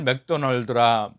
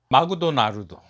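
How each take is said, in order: First: It is said in a Korean accent. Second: It is said in a Japanese accent.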